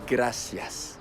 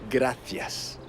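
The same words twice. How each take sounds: First: The c is said as a plain s sound. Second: The c is said as a lisped th sound. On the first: This is how it is said in Latin America. "en Amérique latine, on dira" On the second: This is how it is said in Spain. "en Espagne, on dira"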